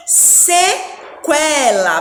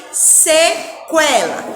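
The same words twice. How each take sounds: First: "sequela" slow, se-kwe-la with the u heard; slow syllables. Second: "sequela" repeated slowly, se-kwe-la, u sounded; slow syllables. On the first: Teacher demonstrating "sequela" slowly to children. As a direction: stretch "sequela", sounding the kw. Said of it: "Olha só". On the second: Teacher repeating "sequela" slowly for children to copy. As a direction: say "sequela" again, slow and clear kw. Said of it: "Vamos repetir". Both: Shown as a demonstration.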